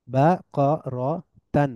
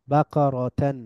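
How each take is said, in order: First: বাকরাতান very slow, split ba, qo, ro, tan; syllable by syllable. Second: Said in the usual way. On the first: Shown as a demonstration. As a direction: pause after each syllable of বাকরাতান. Teacher breaks word into syllables. (ভেঙে ভেঙে বাকরাতান)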